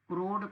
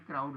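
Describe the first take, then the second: First: The vowel is a single plain 'o' sound. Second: The vowel glides from 'a' to 'u'. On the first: The speaker calls it wrong. "क्रोड कोई word नहीं हो" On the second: The speaker calls it right. "उसमें मैंने क्राउड लिखा होगा।"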